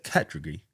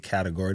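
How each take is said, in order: First: The word is said with a British accent. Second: The word is said without a British accent. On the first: "how British people say words" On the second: "They don't say category"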